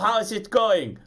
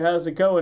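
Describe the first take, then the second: First: It is said with a put-on German accent. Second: It is said in the speaker's ordinary accent. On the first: "suddenly has a German accent" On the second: "instead of"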